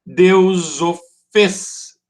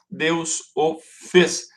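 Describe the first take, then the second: First: "Deus o fez" very slow, stretched beat by beat, emphatic; syllable-count demo. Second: "Deus o fez" very slow and evenly separated, less forceful; syllable-count demo. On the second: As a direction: repeat "Deus o fez" as detached, measured syllables. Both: Shown as a demonstration. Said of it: "duas sílabas".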